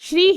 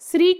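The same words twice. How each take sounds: First: It is said in the standard Sanskrit form. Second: It is said in an altered, non-Sanskrit form. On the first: This is how the word should be said by rule. "Sanskrit अनुसार श्री ही होना चाहिए" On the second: This form gives the chant more power. "यहाँ जप में प्रयुक्त श्री का उच्चारण श्री के रूप में किया गया है"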